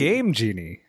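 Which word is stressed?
Game. The stress falls on the first word. The speaker calls it right. "It's Game Genie. Game, okay"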